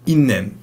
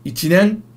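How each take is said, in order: First: A clipped double consonant comes before 'nen'. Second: The full syllable 'chi' comes before 'nen'. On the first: The speaker calls it wrong. "Never いんねん. ... you would never have a little tsu before an n" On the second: The speaker calls it right. "Just add nen"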